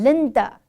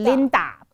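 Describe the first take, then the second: First: The final vowel is a weak schwa. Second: The final vowel is a full ah. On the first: The speaker calls it right. "是" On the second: The speaker calls it wrong. "不是"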